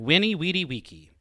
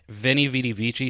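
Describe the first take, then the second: First: It uses the classical Latin pronunciation. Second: It uses the common, non-classical pronunciation. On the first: It is the technically correct Latin version. The speaker calls it right. "the technical Latin way of saying it" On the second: It is the familiar version that sounds cooler. The speaker calls it wrong. "that's not actually how it's supposed to be pronounced"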